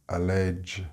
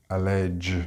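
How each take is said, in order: No difference in how they are said.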